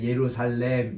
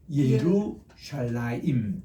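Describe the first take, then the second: First: The word ends with a short -salem. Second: The word ends with a longer -shalaim. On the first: The speaker calls it wrong. "지금까지는 그냥 예루살렘 이렇게 우리가 얘기했는데 그게 아니고" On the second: The speaker calls it right. "그게 아니고 예루샬라임"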